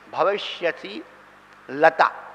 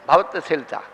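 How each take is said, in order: First: It is said as 'bhavati asi lata'. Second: It is said as 'bhavat shilata'. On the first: The speaker calls it right. "असी माने तलवार" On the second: The speaker calls it wrong. "भवत शिलता नहीं है"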